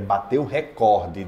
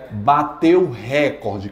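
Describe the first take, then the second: First: Recorde is stressed on its second syllable. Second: Recorde is stressed on its first syllable. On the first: The speaker calls it right. "A mais forte é a penúltima" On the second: The speaker calls it wrong. "O Jornal Nacional fala sempre, mas está errado"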